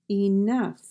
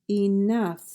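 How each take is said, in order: Both takes have the same delivery.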